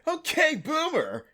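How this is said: It is said in a warm, complimentary tone. The listener is being praised. "all you have to do is change the inflection and it becomes like a compliment"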